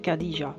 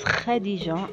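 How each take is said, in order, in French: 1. Il commence par un simple son k dur. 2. Il commence par un son guttural rauque. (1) "et non pas Khadija" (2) "on prononce Khadija"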